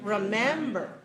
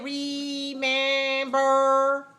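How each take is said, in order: First: The middle syllable is long, the outer ones weak. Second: All three syllables sound equally full. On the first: The speaker calls it right. "we say short, long, short, like this" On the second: The speaker calls it wrong. "So we don't say"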